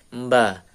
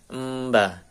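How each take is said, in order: Both takes have the same delivery.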